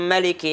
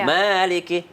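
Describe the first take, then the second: First: The first vowel is kept short. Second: The first vowel is held long.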